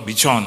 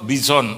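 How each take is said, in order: First: "bison" said with a ch sound, like bichon; breed name with CH. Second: "Bison" said with an s sound in the middle; breed name with S. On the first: Speaker corrects the dog breed, "bison" said as bichon. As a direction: say "bison" as "bi-chon", ch replacing the s. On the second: Speaker names the dog breed, "Bison" with an s sound. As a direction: say "Bison" with a plain s before the last syllable. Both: Real, not acted.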